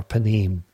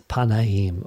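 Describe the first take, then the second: First: Panim, said pa-NEEM in two syllables; two-syllable pronunciation. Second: Panaim, said pa-na-EEM in three syllables; three-syllable pronunciation. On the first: Teacher repeating the other Hebrew form, panim in two syllables. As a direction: shorten panim, with no separate middle "a". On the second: Teacher repeating the Hebrew for face, panaim in three syllables. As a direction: give panaim its separate middle "na". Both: Shown as a demonstration. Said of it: "get my pronunciation right".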